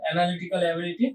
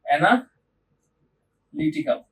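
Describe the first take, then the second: First: Said in the usual way. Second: অ্যানালিটিক্যাল drawn out very slowly, syllable by syllable; slow clear pronunciation. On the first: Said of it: "IB এক্সামে অ্যানালিটিক". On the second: Shown as a demonstration. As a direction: spell out অ্যানালিটিক্যাল slowly with a falling end. (ধীরে ধীরে অ্যানালিটিক্যাল উচ্চারণ)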